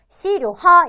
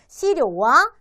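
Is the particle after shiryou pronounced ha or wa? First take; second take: ha; wa. First: The particle is pronounced with an h sound. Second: The particle is pronounced with a w sound. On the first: The speaker calls it wrong. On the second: The speaker calls it right.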